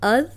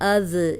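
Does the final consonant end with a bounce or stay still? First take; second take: still; bounce. First: The final consonant is held still without a bounce. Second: The final consonant is released with a bouncing echo. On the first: The speaker calls it right. "बाकी कोई हर्फ हिलने ना पाए।" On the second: The speaker calls it wrong. "अब ये कंट्रोल करना है, इसको ऐसे नहीं पढ़ना"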